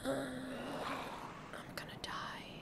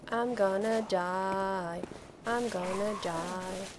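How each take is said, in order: First: Slow, barely voiced whisper; whispered dread. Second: Slow, voiced lament on DIE; drawn-out doom. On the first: Gamer facing death in game, whispered dread. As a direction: whisper it as if doomed. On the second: Gamer facing death in game, drawn-out doom. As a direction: stretch out gonna and die. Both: Real, not acted.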